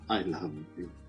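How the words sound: The voice sounds sad and low. "when you're sad"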